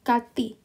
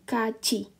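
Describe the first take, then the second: First: The middle consonant is a plain t sound. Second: The middle consonant is a ch sound. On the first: The speaker calls it wrong. "seharusnya kalau kita baca kan kati ya" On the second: The speaker calls it right. "bacanya jadi kaci"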